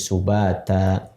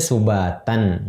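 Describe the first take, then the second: First: The word ends on a vowel. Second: The word ends with an n sound. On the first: The reader stops at this word. "jadi subata" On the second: The reading continues without stopping. "aslinya subatan"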